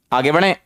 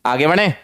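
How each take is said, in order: Both takes have the same delivery.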